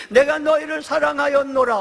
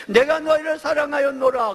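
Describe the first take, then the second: First: 내가 stressed, falling close; 내가 lands hardest, then a falling finish. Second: 너희를 stressed, falling close; 너희를 carries the weight, then a falling finish. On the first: Preacher announcing the title, 내가 stressed. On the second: Preacher repeating the title, 너희를 stressed. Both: Shown as a demonstration. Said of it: "오늘 제목입니다".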